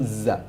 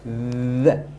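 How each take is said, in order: First: The letter is said with a buzzing 'z' sound. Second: The letter is said with a soft 'th' sound. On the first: The speaker calls it wrong. "and not za" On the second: The speaker calls it right. "Make sure that the tip of the tongue is on your teeth"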